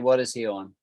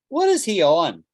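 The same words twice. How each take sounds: First: The question sounds plain and neutral. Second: The question sounds critical and disapproving.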